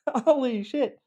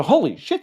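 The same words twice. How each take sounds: First: Very high, amazed repeat of holy shit; amazed echo. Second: High, loud startled gasp of words; shocked realisation. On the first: Coach replaying the victim's shock, very high and amazed. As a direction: squeak it out in disbelief. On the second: Victim suddenly remembering the abuse, high and shocked. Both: Retold or imitated. Realising trauma memories exist.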